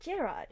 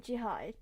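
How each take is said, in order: First: The name is said without French pronunciation. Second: The name is said with French pronunciation.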